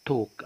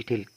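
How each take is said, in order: First: "توك" with the L left silent. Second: "تلك" with the L pronounced before the k; wrongly sounded L. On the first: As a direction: say "توك" with a long vowel straight into the k, no L. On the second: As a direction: mispronounce talk as "تلك", L clearly sounded. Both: Shown as a demonstration. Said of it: "ما اقولش تلك".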